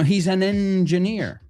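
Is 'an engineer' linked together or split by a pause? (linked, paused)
linked. The n of 'an' runs into 'engineer'. The speaker calls it right. "No hay pausa"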